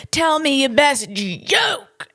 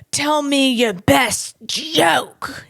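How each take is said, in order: First: Slow demanding lawyer imitation; drawn-out mock demand for a joke; imitating feisty lawyer. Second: Slow demanding lawyer imitation; imitating feisty lawyer. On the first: The comic repeats the lawyer's demand for him, slow mock demand. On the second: The comic mimics the lawyer demanding a joke, slow mock demand. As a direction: slowly demand the joke, mocking him. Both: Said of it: "This is what he did".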